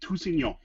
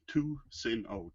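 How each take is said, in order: First: The name is said with French pronunciation. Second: The name is said with English pronunciation. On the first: This is the original form of the name. "the French" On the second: This is the easier form most people use. "The anglicized version is"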